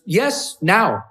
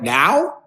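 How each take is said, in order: First: Imitated Icelandic woman, firm short answers; higher pitched YES, then NOW falling, Icelandic-accented. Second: NOW asked with a rising tune; louder, surprised question on NOW. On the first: Icelandic woman insisting he explain, in an Icelandic accent. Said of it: "with the Icelandic accent". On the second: Retold or imitated. Him asking her if he must explain, NOW as a question. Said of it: "I'm like".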